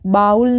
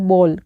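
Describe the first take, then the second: First: The vowel sounds like the 'ow' in cow. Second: The vowel sounds like the 'o' in go. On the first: The speaker calls it wrong. "बाउल नहीं होता है" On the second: The speaker calls it right. "ये होता है बॉल"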